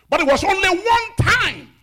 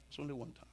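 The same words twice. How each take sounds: First: High, full-force preaching shout; emphatic shout. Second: Soft, hushed aside; subdued repeat. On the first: Preacher tells congregation of Moses' one failure, high emphatic shout. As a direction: cry it out to the whole church. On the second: Preacher lets Moses' one failure sink in, soft and subdued. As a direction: drop right down and let it sink in. Same words repeated softly afterwards. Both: Real, not acted.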